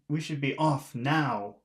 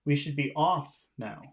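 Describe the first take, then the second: First: The word now carries the main stress. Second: The word off carries the main stress. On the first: It sounds like an emergency. The speaker calls it wrong. "If you emphasize now here" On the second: It is simply time to leave. The speaker calls it right. "I think off is the important word here"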